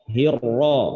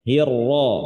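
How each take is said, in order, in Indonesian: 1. Bunyi R itu berat dan tebal. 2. Bunyi R itu berat dan tebal.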